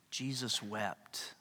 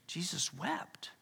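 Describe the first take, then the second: First: A slow, quiet solemn reading; slow and soft. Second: Slow, whispered Jesus wept. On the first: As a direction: let each word fall slowly and softly. Reading the shortest verse. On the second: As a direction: breathe the words out slowly in a whisper. Repeating the verse for weight. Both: Acted.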